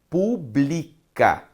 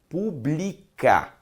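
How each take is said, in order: The two takes are said the same way.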